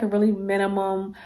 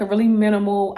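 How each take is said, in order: First: "minimum" said instead of "minimal", ending -mum; wrong word slip. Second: "minimal" said with a final l; corrected word. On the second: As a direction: correct it to "minimal", ending -mal. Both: Real, not acted. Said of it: "um, or mi".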